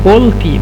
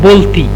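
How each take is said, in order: Both takes have the same delivery.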